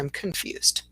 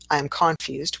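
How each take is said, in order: First: The first vowel of confused is a weak schwa. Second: The first vowel of confused is a full vowel. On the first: The speaker calls it right. "we say I'm confused. So there's definitely that little uh, schwa sound there" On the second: The speaker calls it wrong. "So we don't say confused, I'm confused"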